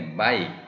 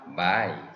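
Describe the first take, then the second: First: The vowel is short and flat. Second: The vowel is long and arched. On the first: The speaker calls it wrong. "마이가 아니라" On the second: The speaker calls it right. "장음이기 때문에 ... 활처럼 휘어준다"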